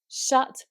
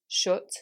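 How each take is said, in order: First: The vowel is an open uh sound. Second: The vowel is a fuller, rounded u sound. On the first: "in modern R P British English, we have two vowels for the uh sound" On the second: "with a Manchester accent... replaced by an even slightly fuller version of u"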